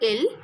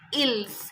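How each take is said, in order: First: The word ends without any s sound. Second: The word ends with an audible s sound. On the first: The speaker calls it right. "It will be pronounced as singular ill" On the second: The speaker calls it wrong. "it is not pronounced as ills"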